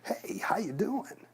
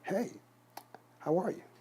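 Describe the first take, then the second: First: It is said in an exaggerated, over-the-top way. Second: It is said lively but not exaggerated.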